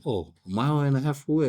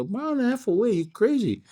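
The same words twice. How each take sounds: First: Said in the usual way. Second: High, disbelieving mock shock; can't believe what you just heard; pitched way up in playful disbelief; incredulous. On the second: Teller shocked by far parking.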